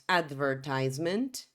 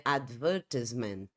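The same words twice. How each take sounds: First: American English "advertisement", stressed on "tise"; American pronunciation. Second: British English "advertisement", stressed on "ver"; British advertisement with short "tis"; British pronunciation. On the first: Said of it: "No inglês americano, diríamos". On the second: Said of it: "No inglês britânico, a pronúncia seria". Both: Shown as a demonstration.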